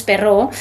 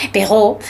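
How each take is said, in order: First: "Perrault" with a Spanish rolled R; Spanish-style Perrault. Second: "Perrault" with a French throaty R; French-style Perrault. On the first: Guest names the tale's author, "Perrault" with Spanish R. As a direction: say "Perrault" as "pe-rró", tongue-tip R. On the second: Guest corrects to French, "Perrault" with uvular R. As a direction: say "Perrault" as "pe-ghó", R at the back. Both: Shown as a demonstration.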